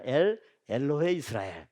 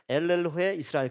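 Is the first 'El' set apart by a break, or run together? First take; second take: break; run together. First: A short break follows the first 'El'. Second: The first two words run together without a break. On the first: The speaker calls it right. "엘 엘로해 이스라엘 그렇게 읽어야 돼" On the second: The speaker calls it wrong. "반드시 어떻게 읽냐면 엘엘로해 이스라엘 그렇게 읽거든요"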